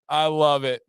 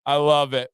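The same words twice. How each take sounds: The two takes are said the same way.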